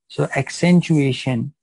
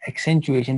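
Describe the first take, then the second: First: Accentuation drawn out slowly and said louder; stressed new term. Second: Said in the usual way. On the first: Shown as a demonstration. Lecturer introducing a term to students, slow and emphatic. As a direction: slowly spell out the new word accentuation for the class. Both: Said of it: "this is called accentuation".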